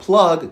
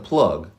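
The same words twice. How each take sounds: First: The vowel is said in its usual lower position. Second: The vowel is raised to a higher position.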